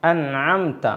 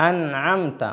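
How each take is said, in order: Both takes have the same delivery.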